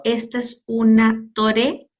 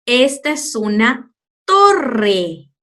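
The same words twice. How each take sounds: First: "torre" mispronounced with a single tap, as tore, slowly; wrong soft R. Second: "torre" slow, with a long rolled RR; correct strong R. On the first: Teacher imagining the mistaken version, soft tapped R. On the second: Teacher presenting the word to pupils, strong rolled R. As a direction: set "torre" apart and trill it. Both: Shown as a demonstration. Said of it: "Te imaginas si lo digo".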